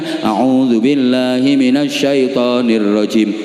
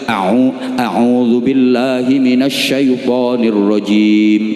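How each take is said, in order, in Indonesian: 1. Bunyi Arabnya diucapkan asal-asalan dan tidak tepat. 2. Bunyi Arabnya diucapkan dengan teliti dan tepat. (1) "itu kan kurang pas"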